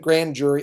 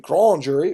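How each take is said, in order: First: Grand is pronounced like the English word. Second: Grand is pronounced with a French accent. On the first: "we just pronounced it grand jury" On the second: "It should be the grand jury"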